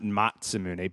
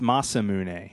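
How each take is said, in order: First: The second syllable begins with a ts sound. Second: The second syllable begins with a plain s sound. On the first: The speaker calls it wrong. "And not Matsumune" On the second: The speaker calls it right. "It's Masamune"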